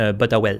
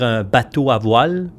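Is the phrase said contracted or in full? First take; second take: contracted; full. First: The words run together into one contracted word. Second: Every syllable of the phrase is fully pronounced. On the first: "nous autres, c'est un « botawel »" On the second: "Au lieu de dire un bateau à voile"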